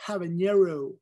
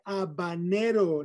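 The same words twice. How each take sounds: First: "habanero" as American hab-un-YAIR-oh; anglicized pronunciation. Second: Said in the usual way. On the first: Shown as a demonstration. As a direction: say "habanero" with English h and false ñ. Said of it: "no habanero". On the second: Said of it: "Se dice habanero".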